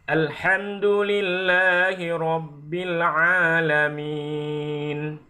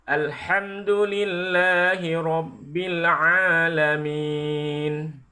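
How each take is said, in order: Both takes have the same delivery.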